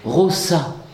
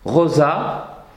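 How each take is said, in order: First: The s is voiceless, like a hissed s. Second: The s is voiced, like a z.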